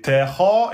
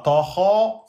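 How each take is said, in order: First: Ta kha with a light, fronted "teh" before kha; thin ta. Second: Ta kha with a thick, dark "to" sound for ta; wrong heavy ta. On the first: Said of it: "c'est ta kha". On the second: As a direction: make the ta of ta kha heavy and backed, like "to". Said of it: "et non pas ta kha". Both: Shown as a demonstration.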